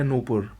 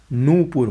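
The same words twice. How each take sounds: First: नूपुर with short first "nu"; wrong pronunciation. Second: नूपुर with long first "noo"; correct pronunciation. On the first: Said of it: "ये गलत है". (नूपुर को "नुपुर" बोलें) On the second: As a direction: hold the first vowel of नूपुर. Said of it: "होता है". (नूपुर में लंबा "नू") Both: Shown as a demonstration.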